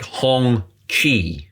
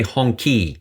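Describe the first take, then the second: First: "Hong Chi" with a ch sound opening the second word; pronunciation demo. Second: "Hong Ki" with a hard k opening the second word; alternative pronunciation. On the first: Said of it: "if you can't pronounce it". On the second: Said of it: "some people say Hong Ki". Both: Shown as a demonstration.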